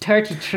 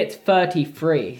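First: It is said in an Irish accent. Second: It is said in the speaker's own accent.

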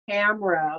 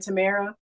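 First: The name rhymes with camera. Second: The name does not rhyme with camera. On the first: The speaker calls it right. "like camera when you take a picture" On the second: The speaker calls it wrong. "like Tia and Tamara"

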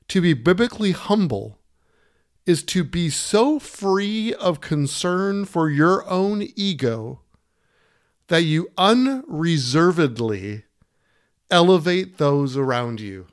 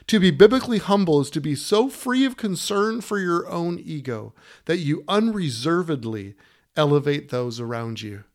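First: It is read at a slower pace. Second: It is read at a faster pace.

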